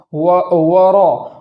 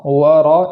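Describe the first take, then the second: First: ورا with lips rounded. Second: ورا heavy, no lip rounding; ورا thick, lips unused; full ra without lips. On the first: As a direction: show the wrong ورا, lips pushed. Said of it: "ورا نہیں پڑھیں گے". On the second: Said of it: "بلکہ ورا". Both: Shown as a demonstration.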